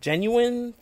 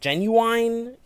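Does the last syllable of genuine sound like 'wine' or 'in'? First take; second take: in; wine. First: The last syllable sounds like 'in'. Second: The last syllable sounds like 'wine'. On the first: The speaker calls it right. "instead of" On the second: The speaker calls it wrong. "we weren't talking about a 90s R&B artist"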